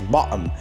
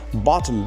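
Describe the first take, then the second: First: The middle consonant is a glottal stop. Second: The middle consonant is a clear t sound.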